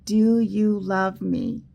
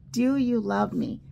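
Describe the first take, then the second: First: Slow and louder, leaning on do; the key phrase, presented slowly and firmly; slow emphatic phrase. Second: Said in the usual way. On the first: Shown as a demonstration. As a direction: spell out Do you love me? slowly, louder, stress on Do. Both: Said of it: "Our very special word for today is actually a phrase".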